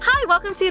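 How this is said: The voice is high-pitched and friendly. The speaker wants to seem likable. The speaker calls it right. "My voice is a higher key"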